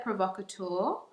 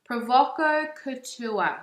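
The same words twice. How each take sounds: First: Said in the usual way. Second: Slow, higher Bogan Australian accent; playful broad Bogan pronunciation. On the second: Shown as a demonstration. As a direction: drag out "Provoco Couture" in a Bogan accent. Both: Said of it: "in my Bogan accent".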